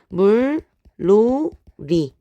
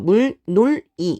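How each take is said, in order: First: The second syllable starts with an l sound. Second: The second syllable starts with an n sound. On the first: The speaker calls it right. "요렇게 발음을 하게 됩니다" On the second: The speaker calls it wrong. "이렇게 끊게 되는 것이 아니라"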